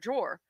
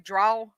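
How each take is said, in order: First: The word ends with an R sound. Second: The word ends without an R sound.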